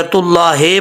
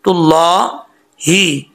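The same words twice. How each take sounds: First: तुल्लाहे with a loose "hay" ending; mistaken ending. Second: तुल्लाही drawn out, ending on a clear "hee"; slow, thick "llaa", then "hee" in तुल्लाही; correct ending. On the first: Teacher warning of a mistake, wrong vowel shown. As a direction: say तुल्लाहे quickly, ending in "ay" not "ee". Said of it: "पढ़ेंगे तो mistake हो जाएगी". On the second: Teacher correcting the "he" mistake, careful recitation. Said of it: "हे नहीं पढ़ना". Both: Shown as a demonstration.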